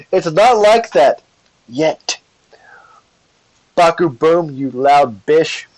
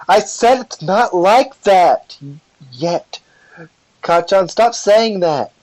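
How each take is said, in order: First: Flustered. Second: Drawn-out, high-pitched insistence; louder protest. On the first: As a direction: deny it, embarrassed, voice pitched up. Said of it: "get embarrassed and flustered". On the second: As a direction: insist slowly, voice raised and flustered. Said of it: "gets louder and says". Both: Acted.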